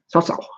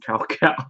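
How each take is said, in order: First: The name is said with a Chinese-style pronunciation. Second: The name is said with an English-style pronunciation. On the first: The speaker calls it right. "I am not Chinese enough to say South South" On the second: The speaker calls it wrong. "I still call him Cow Cow because I'm used to that"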